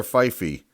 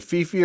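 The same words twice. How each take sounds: First: "Fife" said FY-fee; alternative pronunciation. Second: "Fifi" said FEE-fee; first pronunciation. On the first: Card collector offering the other reading, FY-fee for "Fife". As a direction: say "Fife" with a long i, then ee. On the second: Card collector unsure of a player's name, trying FEE-fee for "Fifi". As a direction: say "Fifi" with ee in both syllables. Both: Shown as a demonstration. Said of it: "Is it Fifi or Fife?".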